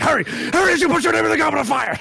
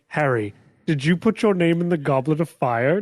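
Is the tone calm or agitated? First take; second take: agitated; calm. First: It is said agitatedly, like Dumbledore. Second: It is said calmly, like Dumbledore.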